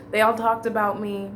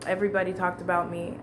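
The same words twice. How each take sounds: First: They ALL talked about me, the word all leaned on; stress on all. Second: Whispered "Everybody talked about me" with no voice. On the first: Telling a listener how everyone gossiped, all stressed. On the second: Repeating the gossip secretively, in a whisper. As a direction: drop to a breath and whisper "Everybody". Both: Shown as a demonstration.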